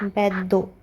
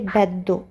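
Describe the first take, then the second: First: The 'd' sound is held double in the middle. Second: The same.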